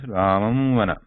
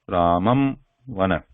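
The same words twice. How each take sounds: First: Words run together with a nasal, unclosed m. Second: A break follows a full, lip-closed m. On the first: "I am pronouncing these uh, first word and the second word together" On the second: "If I take a break, then I have to pronounce this ma sound completely"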